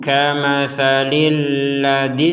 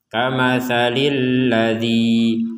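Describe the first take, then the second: First: It runs on with a short final vowel. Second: It stops after a final vowel held two beats. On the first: "disambung dengan ayat setelahnya, maka dua ketukannya menjadi hilang" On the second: "Kita berhenti dengan dua ketukan"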